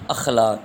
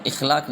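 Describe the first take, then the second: First: اخلاق opening on short a, "akhlaq"; correct pronunciation. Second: اخلاق opening on short i, "ikhlaq"; wrong pronunciation. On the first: Teacher giving students the answer, careful "akhlaq" for اخلاق. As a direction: say اخلاق as "akh-LAAQ". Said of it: "تو درست تلفظ ہے". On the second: Teacher showing what not to say, "ikhlaq" for اخلاق. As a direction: say اخلاق as "ikh-LAAQ". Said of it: "نہیں بولتے". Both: Shown as a demonstration.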